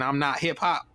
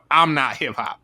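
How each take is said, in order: First: It sounds like an incredulous question. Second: It sounds like a flat assertion.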